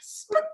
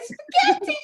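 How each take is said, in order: First: It is said in a sad voice. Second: It is said in an excited voice.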